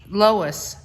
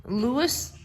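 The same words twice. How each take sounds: First: "Lois" said as LOH-iss, slightly louder, falling; corrected name. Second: "Louis" said as LOO-is, the wrong reading of the name; mispronounced name. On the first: Shown as a demonstration. Wife correcting the author's name to "Lois". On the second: Real, not acted. Wife reading the author's name as "Louis". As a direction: read "Louis" with a rising tune as LOO-is.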